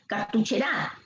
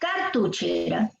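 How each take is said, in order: First: The stress is on the last syllable, ra. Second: The stress is on the first syllable, car. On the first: "Si fuera en gra" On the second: "Si fuese en car"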